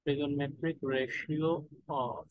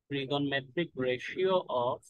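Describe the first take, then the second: First: Trigonometric ratio drawn out very slowly, rising at the end; slow dictation. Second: Trigonometric ratio spelled out very slowly, falling at the end; slow dictation. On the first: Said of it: "repeated slowly for note-taking". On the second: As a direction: dictate trigonometric ratio word by word, letting it fall. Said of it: "slow dictation of the chapter topic". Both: Shown as a demonstration.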